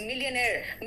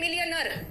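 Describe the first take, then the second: First: The word ends with a long 'air' sound. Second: The word ends with a short 'er' sound. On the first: The speaker calls it right. "It is मिलियनेयर" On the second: The speaker calls it wrong. "हम लोग कहते हैं मिलियनर"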